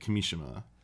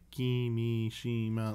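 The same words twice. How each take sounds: First: The name is said with a natural, flowing rhythm. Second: The name is said robotically, syllables evenly stressed. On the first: The speaker calls it right. "It's like Kimishima. It was like how Blood said it" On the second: The speaker calls it wrong. "you're also not supposed to say it's so robotic either... that's not right"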